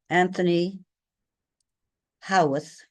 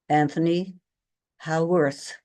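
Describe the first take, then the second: First: It is said in a British way, without an R. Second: It is said in an American way, with an R. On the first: "that's the British pronunciation" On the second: "with an R"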